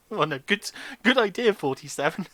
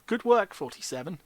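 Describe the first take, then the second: First: Loud, high "good idea" burst; exaggerated praise. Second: Flat, ironic "Good work"; deadpan fake compliment; dry praise. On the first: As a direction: overblown mock enthusiasm. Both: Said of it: "Hence my reaction".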